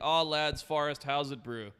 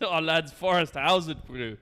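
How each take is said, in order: First: It is read in the speaker's ordinary accent. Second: It is said in a South African accent.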